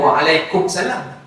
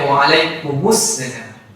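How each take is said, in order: First: The m runs straight into salam without a vowel. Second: The m is followed by a vowel before salam. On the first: The speaker calls it wrong. "yang salahnya adalah" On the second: The speaker calls it right. "Bacanya ... kita hidupkan dia, jangan matikan dia"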